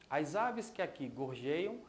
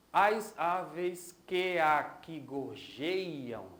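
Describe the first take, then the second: First: Said in the usual way. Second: "As aves que aqui gorjeiam" very slow, syllable by syllable; escansão do verso. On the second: Shown as a demonstration. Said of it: "Vamos dar uma olhada?". ("As aves que aqui gorjeiam" bem devagar, sílaba por sílaba)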